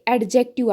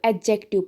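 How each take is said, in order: First: The d sound is pronounced. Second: The d sound is silent. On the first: The speaker calls it wrong. "आदि लोग पढ़ते हैं" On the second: The speaker calls it right. "इसको एडजेक्टिव पढ़ना होता है"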